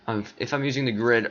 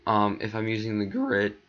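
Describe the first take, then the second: First: Said in the usual way. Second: Sudden crack in the voice. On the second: Real, not acted. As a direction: voice cracks on the line. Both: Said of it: "that voice crack".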